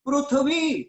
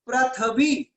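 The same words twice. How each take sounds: First: The r is followed by a u vowel. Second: The r is followed by an a vowel. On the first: This is how Marathi and Gujarati speakers say it. "वो प्रू यानी ऊकार से चलते हैं" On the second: This is how Hindi speakers say it. "Hindi साइडर बोलेगा तो बोलता है पृथ्वी, यानी वो अ उच्चारण करता है"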